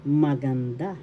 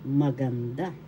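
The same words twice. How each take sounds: The two takes are said the same way.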